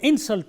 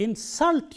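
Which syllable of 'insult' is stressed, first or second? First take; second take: first; second. First: The stress is on the first syllable. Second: The stress is on the second syllable. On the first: The word is used as a noun. "I stress the first syllable of this word, in" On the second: The word is used as a verb. "Stress is on the second syllable because it is used as a verb"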